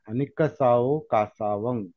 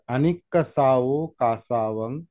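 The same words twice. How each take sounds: Both takes have the same delivery.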